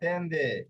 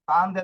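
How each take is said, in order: First: The first vowel sounds like 'e'. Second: The first vowel sounds like 'a'. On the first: The speaker calls it right. "না তেন্দে" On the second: The speaker calls it wrong. "তান্দে না"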